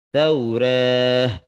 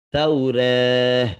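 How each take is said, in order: The two takes are said the same way.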